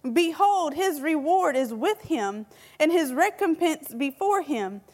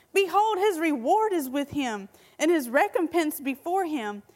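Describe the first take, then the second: No difference in how they are said.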